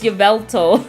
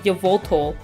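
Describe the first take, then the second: First: The second syllable has an E vowel. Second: The second syllable has an O vowel. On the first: The speaker calls it right. "it's Yveltal" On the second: The speaker calls it wrong. "I think I used to call him, like, Yvoltol, which is not"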